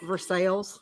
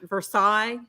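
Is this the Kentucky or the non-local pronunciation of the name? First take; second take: Kentucky; non-local. First: It is pronounced the way Kentucky locals say it. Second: It is pronounced the usual way, not locally. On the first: "Kentuckians pronounce it Versailles" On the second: "it's it's Versailles"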